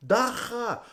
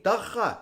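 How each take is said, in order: First: Dagga with a guttural g, dah-kha; say it the South African way. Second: Dagga with a throaty kh, dah-kha; guttural dagga. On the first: Teaching the crowd the local word, Dagga with a rasping g. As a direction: Dagga said with a throaty kh in the middle. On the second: Crowd repeats after the comic, Dagga with a throaty g. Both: Shown as a demonstration. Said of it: "Repeat after me".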